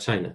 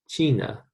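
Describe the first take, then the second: First: The first vowel sounds like English 'eye'. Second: The first vowel sounds like English 'ee'. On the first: The speaker calls it wrong. "Not China" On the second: The speaker calls it right. "I remember that I says E in Spanish"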